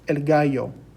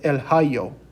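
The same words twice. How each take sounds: First: Gallo begins with a hard g sound. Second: Gallo begins with a breathy h sound. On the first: The speaker calls it right. "a G in Spanish may make a G sound" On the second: The speaker calls it wrong. "we don't pronounce it el gallo"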